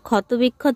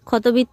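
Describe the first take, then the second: First: The word is said in full, with every syllable. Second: The word is said shortened, with a middle part dropped. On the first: This is the proper form of the word. The speaker calls it right. "ওটা ক্ষত বিক্ষত হবে" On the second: This is how a small child says it. The speaker calls it wrong. "উচ্চারণ করতে পারছে না, ক্ষতবিত্ত বলছে"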